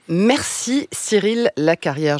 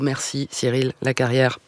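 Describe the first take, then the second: First: It is said in a normal voice. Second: It is said in a robot-like voice.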